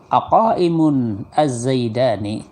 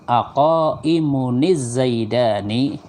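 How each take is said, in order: First: The two words are said separately, without linking. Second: The words are joined with a linking -ni sound. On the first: "lihat saja tulisannya" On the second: "kalau dibaca wasol menjadi"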